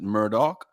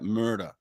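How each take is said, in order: First: The name ends with a 'dock' sound. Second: The name ends with a 'der' sound. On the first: This is how the family says it. "they pronounce it Murdoch" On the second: This is how the spelling suggests it. "his name is spelt like that, Murder"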